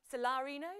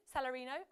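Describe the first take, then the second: First: Salarino said "sa-LAH-rino"; stress on second syllable. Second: Salarino said "sal-a-REE-no"; stress on third syllable. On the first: Quiz host trying the name Salarino, stressed on LA. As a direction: put the weight on the LA in Salarino. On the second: Quiz host retrying the name Salarino, stressed on REE. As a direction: put the weight on the RI in Salarino. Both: Shown as a demonstration. Tries two pronunciations of name.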